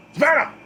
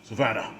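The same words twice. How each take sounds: First: High, loud desperate call; yelled name. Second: Said in the usual way. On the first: A narrator's reading. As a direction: yell it out as if searching for someone. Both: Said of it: "he yells".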